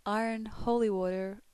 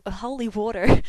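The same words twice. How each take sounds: First: Said in the usual way. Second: "holy water" said much louder, rising at the end; "holy water" shouted, rising tune. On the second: Shown as a demonstration. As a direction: blurt "holy water" out loud with a rise. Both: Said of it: "pronounce the following words".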